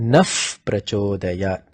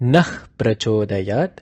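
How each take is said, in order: First: The first word ends in a soft f sound. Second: The first word ends in a forceful h sound. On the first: The speaker calls it right. "you give an uf sound here" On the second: The speaker calls it wrong. "you end the nah sound with a force"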